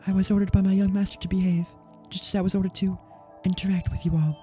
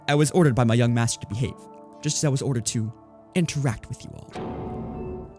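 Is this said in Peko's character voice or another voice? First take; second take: another voice; Peko's voice. First: It is said in a voice other than Peko's. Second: It is said in Peko's character voice.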